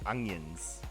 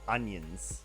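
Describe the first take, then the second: First: The middle has an ng sound. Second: The middle has a plain n sound. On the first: The speaker calls it right. "We're saying onions with a G and N" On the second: The speaker calls it wrong. "We're not saying"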